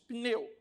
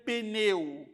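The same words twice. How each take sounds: First: Only a faint vowel links p and n. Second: A full vowel is heard between p and n. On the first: The speaker calls it right. "nós dizemos" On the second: The speaker calls it wrong. "Ninguém chega para o mecânico e fala"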